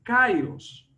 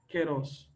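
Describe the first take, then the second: First: The first syllable is pronounced kai. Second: The first syllable is pronounced ke. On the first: The speaker calls it wrong. "muchas personas al momento de hablar de keros dicen kairos" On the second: The speaker calls it right. "realmente la pronunciación correcta sería keros"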